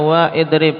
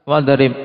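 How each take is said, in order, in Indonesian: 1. Hamzah terpisah memulai idrib setelah wa. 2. Wa langsung menyambung ke drib tanpa hamzah. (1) "ternyata tidak dibaca wa idrib" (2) "tapi apa langsung?"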